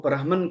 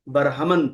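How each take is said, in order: First: It is said with two syllables, no inserted vowel. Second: It is said with three syllables, a vowel inserted. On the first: The speaker calls it wrong. "ब्राह्मण के बजाय" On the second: The speaker calls it right. "बरहमन पढ़ना पड़ेगा, तब जाके इसका वज़न सही आएगा"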